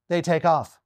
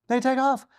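First: Said in the usual way. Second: They take off repeated high in disbelief; They take off raised high. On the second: Shown as a demonstration. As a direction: say They take off again higher, incredulous.

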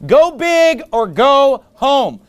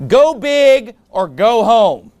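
First: Slow, punchy repeat of the title; sermon title repeated. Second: Slow, weighty title read; sermon title announced. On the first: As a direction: drive the title home slowly, word by word. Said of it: "That's the title of the sermon tonight". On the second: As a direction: announce the title slowly, every word weighed. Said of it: "The title of my sermon is this". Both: Shown as a demonstration.

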